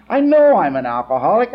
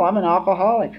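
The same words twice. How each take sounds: First: "know" hit hard and louder, rising; stress on know. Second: Said in the usual way. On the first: Real, not acted. To the meeting, insisting with stress on know. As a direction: lean into the word "know".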